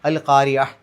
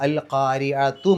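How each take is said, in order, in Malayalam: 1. ഈ വാക്ക് മൃദുവായ h ശബ്ദത്തിലാണ് അവസാനിക്കുന്നത്. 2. ഈ വാക്ക് സ്വരാക്ഷരത്തോടു കൂടിയ t ശബ്ദത്തിലാണ് അവസാനിക്കുന്നത്. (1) "സുക്കൂനുള്ള ഹാ ഉള്ള പോലെയാണ് പറയേണ്ടത്" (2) "ചേർത്തി ഓതുകയാണെങ്കിലും അവിടെ എഴുതിയ പോലെ തന്നെ പാരായണം ചെയ്യുക"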